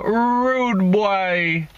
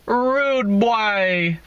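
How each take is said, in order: First: Put-on Jamaican rude boy, drawn out, higher; a Jamaican greeting, stretched on rude; Jamaican accent. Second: Mock Jamaican rude boy, higher pitch; lightly voiced Jamaican call of rude boy; Jamaican accent. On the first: Shown as a demonstration. Demonstrating how Jamaicans say it, a mock Jamaican accent. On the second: Hailing Craig in a light mock Jamaican accent. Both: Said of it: "That's how they say it in Jamaica".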